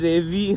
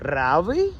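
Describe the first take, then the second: First: The first vowel is short and plain. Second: The first vowel is long and stressed. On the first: "നമ്മുടെ നാട്ടിൽ രവി എന്നുള്ള വാക്ക്" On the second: "ഇവിടുത്തെ ആൾക്കാർ എങ്ങനെ പറയാന്ന്"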